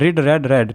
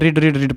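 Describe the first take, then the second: First: The last two words sound like 'red'. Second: The last two words sound like 'reed'. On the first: "दूसरी होती है रेड और तीसरी होती है रेड" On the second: "spelling वही होती है तो रीड रीड रीड पढ़ देते हैं"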